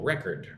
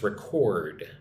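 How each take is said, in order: First: The stress is on the first syllable. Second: The stress is on the second syllable. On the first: It is used as an adjective. "when it's an adjective, the emphasis goes on the first syllable" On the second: It is used as a verb. "When it's a verb, it's record. It's different"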